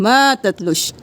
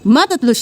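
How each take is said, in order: First: The vowel in 'ma' is held long. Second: The vowel in 'ma' is cut short. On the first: The speaker calls it right. "एक अलिफ के बराबर खींचेंगे" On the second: The speaker calls it wrong. "नहीं करेंगे"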